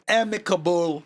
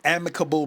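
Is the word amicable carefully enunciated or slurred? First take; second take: carefully enunciated; slurred. First: Each syllable of the word is clearly articulated. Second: The word is run together and not clearly articulated. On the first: The speaker calls it right. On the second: The speaker calls it wrong.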